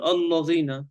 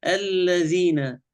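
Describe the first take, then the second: First: "الذين" with heavy, dark "alla"; faulty demo, allo-dhina for "الذين"; wrong thick lam. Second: "الذين" slow with thin alladhina; drawn-out correction, front vowel in "الذين"; corrected light lam. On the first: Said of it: "لا نقول الذين". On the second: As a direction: keep the l of "الذين" light and clear. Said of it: "هذا خطأ". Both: Shown as a demonstration.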